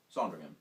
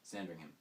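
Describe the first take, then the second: First: Sandringham said with a broad British "ah" and no h, loud and falling. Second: Said in the usual way. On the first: Shown as a demonstration. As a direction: say Sandringham the posh British way, "Sahndringum".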